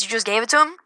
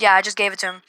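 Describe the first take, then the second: First: "You just gave it to him?" rising on "him" as a question. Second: Said in the usual way. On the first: Retold or imitated. Teacher checks the boy's story, questioning. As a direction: retell it as a query, voice going up at "him".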